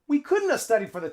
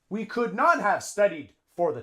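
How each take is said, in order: First: Could not is contracted into one word. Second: Could not is said as two full words. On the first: The speaker calls it right. "A native English speaker would say" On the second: The speaker calls it wrong. "this is perfect English, but a native English speaker would not say it like that"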